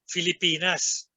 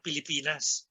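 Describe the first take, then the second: First: The word begins with an f sound. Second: The word begins with a p sound. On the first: The speaker calls it right. "it takes an educated Ilocano to say Filipinas" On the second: The speaker calls it wrong. "not Pilipinas"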